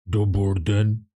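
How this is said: It is said in a deep Godfather voice.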